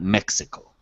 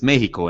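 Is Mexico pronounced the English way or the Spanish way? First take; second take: English; Spanish. First: The name is given its English pronunciation. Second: The name is given its Spanish pronunciation. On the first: This is how Americans say the name. The speaker calls it wrong. "and not Mexico" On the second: This is how the name should be said. The speaker calls it right. "it's Mexico"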